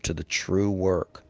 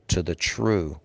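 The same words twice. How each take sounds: First: "true" slowed and weighted, then a falling close; stress on TRUE. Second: True leaned on and falling; stress on true. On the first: Preacher stressing "true" for his listeners, slow and emphatic. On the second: Preacher leaning on "true" to his congregation. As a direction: lean on the word "true" before the pause. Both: Shown as a demonstration. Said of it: "and I emphasize that word".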